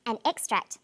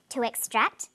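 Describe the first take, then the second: First: "extract" stressed on EX, an EX-tract; first-syllable stress. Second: "extract" stressed on TRACT, to ex-TRACT; second-syllable stress. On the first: Teacher models the noun form, first-syllable stress on "extract". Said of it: "first syllable emphasis for the noun form". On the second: Teacher models the verb form, second-syllable stress on "extract". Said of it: "second syllable emphasis for the verb form". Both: Shown as a demonstration.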